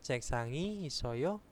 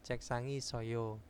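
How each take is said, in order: First: The voice rises at the end like a question. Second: The voice falls at the end like a statement. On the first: It asks whether there is a desk. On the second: It states that there is a desk.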